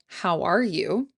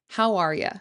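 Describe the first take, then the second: First: Each word is said separately and clearly. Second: 'You' is reduced to a casual 'ya'. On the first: "You can say each word clearly" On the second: "change the you to a more casual ya"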